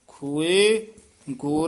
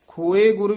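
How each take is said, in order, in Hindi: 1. पहले शब्द के बाद विराम है। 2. दोनों शब्द बिना विराम के एक साथ बोले जाते हैं। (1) "ਖੋਏ ਤੇ ਵੀ ਯਮਕ ਲਾ ਕੇ ਉਚਾਰਨ ਕਰਨਾ" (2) "ਖੋਏ ਗੁਰ ਵੀ ਨਹੀਂ ਕਹਿ ਦੇਣਾ"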